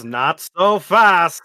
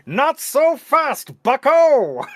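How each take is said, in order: First: Put-on slow old-timey announcer quote; lightly voiced forties announcer; mock newsreel voice. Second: Slow, high mock announcer drawl; old-timey newsreel voice. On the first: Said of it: "But President Trump says". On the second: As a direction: stretch it out like a forties newsreel.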